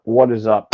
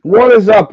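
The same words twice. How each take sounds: First: Said in the usual way. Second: Big excited show opener; loud hype greeting. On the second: Real, not acted. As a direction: shout it out high and loud. Loud podcast opening greeting.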